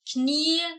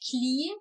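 First: The word starts with a 'kn' sound. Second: The word starts with a 'kl' sound. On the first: The speaker calls it right. "die Buchstabenkombination KN" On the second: The speaker calls it wrong. "Ich habe stattdessen gesagt Kli"

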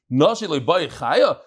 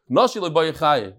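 First: It is said with a questioning tune. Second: It is said flat, as a statement.

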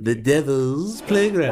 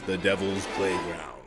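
First: The voice is higher and more nasal. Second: The voice is put on to sound spooky. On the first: "Why do you keep going higher and nasaler?" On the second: "It's because it's spooky"

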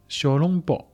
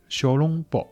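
First: It is pronounced in Shanghainese. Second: The same.

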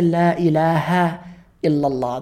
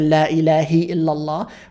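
First: The word after La ends in an 'a' vowel. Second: The word after La ends in an 'i' vowel. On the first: The speaker calls it right. "we say La ilaha illallah ... the word after it takes a fatha" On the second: The speaker calls it wrong. "Or why don't we say"

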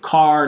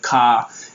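First: The r at the end is clearly sounded. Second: The r at the end is dropped. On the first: "car instead of ka" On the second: "in contrast to British"

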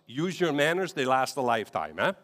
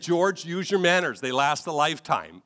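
First: It is said in a Dutch brogue. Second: It is said in a plain accent.

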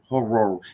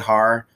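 First: The word is drawn out with rumbling r sounds. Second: The word is clipped, sounding nearly one syllable. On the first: "I sound like an engine that won't turn over"

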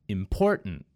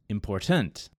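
First: The stress falls on the second syllable. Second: The stress falls on the third syllable. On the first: The speaker calls it right. "the correct pronunciation was when I put emphasis on the middle syllable" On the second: The speaker calls it wrong. "In the third word, important, which is also incorrect, I emphasize the third syllable, tent"

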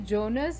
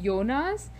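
First: The name starts with a J sound. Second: The name starts with a Y sound. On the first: "the subtitles say Jonas" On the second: "They translate the J to a Y"

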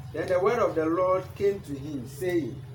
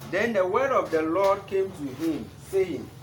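The two takes are said the same way.

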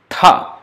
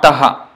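First: The t is released with a puff of breath. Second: A vowel separates the t from the h. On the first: The speaker calls it right. "same ta with force of breath, aspirated" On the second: The speaker calls it wrong. "not taha"

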